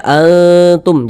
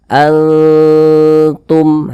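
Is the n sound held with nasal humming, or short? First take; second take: short; held. First: The n is short and not held. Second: The n is nasal and held briefly. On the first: The speaker calls it wrong. "Jangan juga dibaca antum, jangan" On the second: The speaker calls it right. "Tapi kita baca antum ... didengungkan ... kita panjangkan sejenak sepanjang dua harokat"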